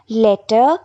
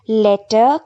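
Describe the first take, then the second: The two takes are said the same way.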